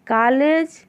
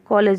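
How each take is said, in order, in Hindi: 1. पहला स्वर साफ़ खुला 'aa' है। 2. पहला स्वर 'aa' और 'o' के बीच है। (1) "ऐसा नहीं बोलते" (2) "हम कॉलेज बोलते हैं"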